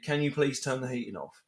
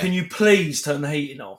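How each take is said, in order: First: The request is read in a neutral tone. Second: The request is read in an irritated tone. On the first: It is a simple polite request. "She has messaged me" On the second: The sender is annoyed and demanding. "I could read that in the wrong mood"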